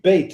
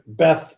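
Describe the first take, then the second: First: The word ends with a 't' sound. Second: The word ends with a 'th' sound. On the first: The speaker calls it right. "It should be bait" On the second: The speaker calls it wrong. "they see the T H and they don't think this"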